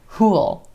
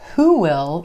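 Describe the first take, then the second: First: Will is reduced into one syllable, like pool. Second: Will is said as a full separate word. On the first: "who'll. Rhymes with pool" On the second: "who will becomes who'll"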